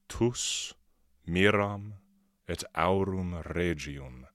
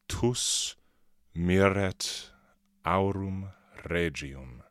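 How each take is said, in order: First: Miram and et are said as separate words. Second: Miram and et merge into one word.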